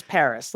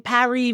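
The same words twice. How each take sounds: First: Said in the usual way. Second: "Paris" said French-style, as pa-REE; French pronunciation. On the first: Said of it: "it's like saying Paris versus Paris". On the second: Shown as a demonstration. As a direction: say "Paris" with a silent s, ending in ee. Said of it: "you're just being arrogant when you say".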